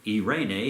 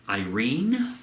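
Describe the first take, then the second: First: The name is said the Greek way. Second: The name is said the usual English way.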